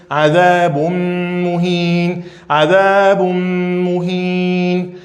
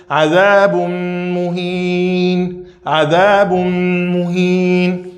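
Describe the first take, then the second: The two takes are said the same way.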